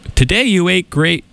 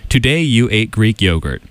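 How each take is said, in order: First: It is read in a funny put-on voice. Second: It is read in his normal radio voice.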